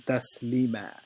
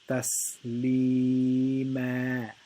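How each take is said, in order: First: The long vowel is cut short. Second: The long vowel is stretched for two beats. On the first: The speaker calls it wrong. "the wrong way to say it would be" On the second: The speaker calls it right. "The right way to say it would be"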